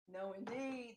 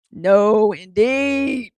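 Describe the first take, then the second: First: Very soft imitation of a refusing grandma; quiet echoed refusal. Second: Loud, drawn-out imitation of a refusing grandma; emphatic mock refusal. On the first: Granddaughter echoing grandma's refusal, very quietly. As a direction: repeat it far under the voice. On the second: Grandma refusing fair food, imitated loud and drawn out. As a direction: boom it out like grandma laying down the law.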